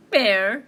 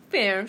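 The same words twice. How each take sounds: First: Very loud bear, rising question; scoffing bear. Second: Loud, short retort; retorting mouse. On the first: Bear answering mouse's protest, booming scoff. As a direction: boom it back in disbelief. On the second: Mouse answering tricked bear, loud retort. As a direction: throw the word straight back. Mouse throws word back. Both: Acted.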